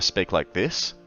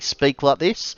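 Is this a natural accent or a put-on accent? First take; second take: natural; put-on. First: It is spoken in a natural accent. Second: It is spoken in a put-on accent. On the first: "normally I speak like this" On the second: "I have to put it on though"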